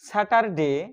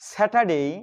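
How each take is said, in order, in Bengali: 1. t ধ্বনিটি বাতাসের ফুঁ ছাড়া উচ্চারিত হয়। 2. t ধ্বনিটি বাতাসের ফুঁ সহ উচ্চারিত হয়। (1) "স্যাটারডে এখানে ট বলতাম এবং ডেকে ডে বলে আসতাম" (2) "আসলে এটার সঠিক উচ্চারণ হচ্ছে"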